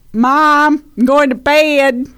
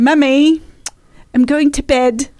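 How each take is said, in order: First: Louder, higher Southern American twang; newly American kid with a Southern accent. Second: Put-on higher British child telling mother; little British girl's bedtime announcement; British accent. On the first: Acted. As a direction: stretch "bed" in a Southern accent. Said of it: "a full-on American". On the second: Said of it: "instead of saying".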